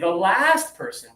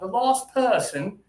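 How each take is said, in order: First: It is said in an American accent. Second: It is said in a British accent. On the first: "we would say the last person" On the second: "in British English, it's a little bit more ah ah ah"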